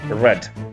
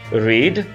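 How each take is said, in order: First: The vowel is short, like in 'red'. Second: The vowel is long, like in 'reed'. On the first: It is the past form of the verb. "forma przeszła jest read, jak czerwone" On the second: It is the present form of the verb. "jest read"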